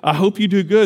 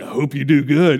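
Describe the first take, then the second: First: The voice sounds warm and sincere. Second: The voice sounds cold and sarcastic. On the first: The sender means it kindly. "You're like" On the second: The reader takes it as a snide remark. "And they read it like"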